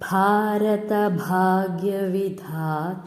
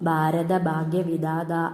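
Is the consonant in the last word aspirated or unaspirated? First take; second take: aspirated; unaspirated. First: The last word has an aspirated dh sound. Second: The last word has an unaspirated d sound. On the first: The speaker calls it right. "എങ്ങനെ പാടും?" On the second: The speaker calls it wrong. "എന്നൊന്നും പാടരുത്"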